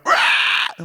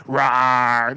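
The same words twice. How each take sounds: First: Breathy unvoiced rawr, next level; real roar. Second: Lightly voiced low rawr, the wrong way; a tame half-hearted roar; weak roar. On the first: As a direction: roar it fierce and rasping. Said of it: "it's gotta be like". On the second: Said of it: "gotta be not like". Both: Shown as a demonstration.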